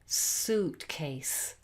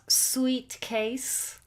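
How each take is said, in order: First: The first syllable has a plain 'oo' vowel. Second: The first syllable sounds like 'sweet'. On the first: The speaker calls it right. "It's suitcase, ooh" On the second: The speaker calls it wrong. "It's not sweet case"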